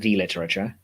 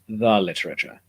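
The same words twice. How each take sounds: First: The word 'the' is pronounced 'thee'. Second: The word 'the' is pronounced 'thuh'. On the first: The speaker calls it wrong. "it's not the literature" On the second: The speaker calls it right. "it's the literature"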